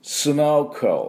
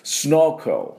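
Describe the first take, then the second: First: The K runs straight into the L. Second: The same.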